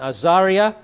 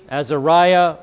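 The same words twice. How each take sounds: First: The name is said in a Hebrew-like way. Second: The name is said in a common anglicized way.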